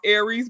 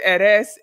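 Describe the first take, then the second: First: It sounds just like the zodiac sign's name. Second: It sounds different from the zodiac sign's name. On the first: Listeners take it to mean the zodiac sign. "It traditionally is pronounced Aries" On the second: It keeps the name apart from the zodiac sign. "I usually like to pronounce it Eres"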